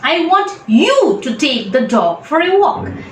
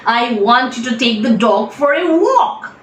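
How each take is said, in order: First: The stress is on the word you. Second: The stress is on the word walk.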